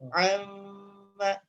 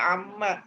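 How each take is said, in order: First: The lips stay slightly apart with a nasal hum. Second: The lips close tightly with little nasal hum. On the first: The speaker calls it right. "Amma seperti itu Pak" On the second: The speaker calls it wrong. "tidak amma. Kalau amma itu gunnahnya nggak dapat"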